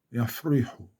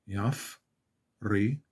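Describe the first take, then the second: First: Said in the usual way. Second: יפריחו in three parts, yaf, ri, hu; slowed down. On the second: Shown as a demonstration. Teacher slows it for learners, יפריחו as yaf, ri, hu. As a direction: break יפריחו up with clear pauses. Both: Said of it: "back, slow it down".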